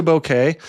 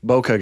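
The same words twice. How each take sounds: First: Bokeh ending in "eh", the new way; bokeh as BOH-keh. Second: Put-on bokeh ending in "uh", the old way; bokeh as BOH-kuh. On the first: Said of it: "I have moved to bokeh". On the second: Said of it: "who was a bokeh guy". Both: Shown as a demonstration.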